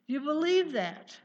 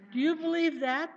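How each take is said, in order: First: Loud, higher, stress on believe; challenging question. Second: Loud, higher, stress on you with a rise; repeated challenge. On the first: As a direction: press the word believe at the crowd. Preacher challenging congregation. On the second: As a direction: lean on you and lift the end. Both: Acted.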